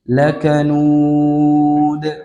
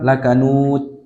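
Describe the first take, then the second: First: The final d bounces lightly without exaggeration. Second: The final d is carelessly clipped without bounce. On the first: The speaker calls it right. "tidak sampai demikian" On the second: The speaker calls it wrong. "tidak boleh pula serampangan"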